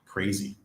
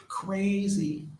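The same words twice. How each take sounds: First: Said in the usual way. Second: "Crazy" said much higher, in wonder; amazed high. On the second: Real, not acted. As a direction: lift "Crazy" way up in disbelief. Repeats the word in awe.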